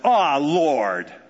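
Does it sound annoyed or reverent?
annoyed. It sounds annoyed and exasperated.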